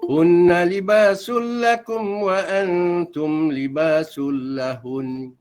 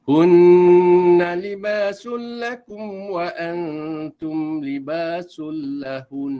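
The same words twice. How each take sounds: First: The nasal hum on the doubled n is cut short. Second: The nasal hum on the doubled n is held long. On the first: The speaker calls it wrong. "Ada dengung tapi tak cukup dua harakat, ya, tak mau macam tu" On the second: The speaker calls it right. "Tahan di situ. Ya, dengung dia dua harakat, ya, jangan kurang"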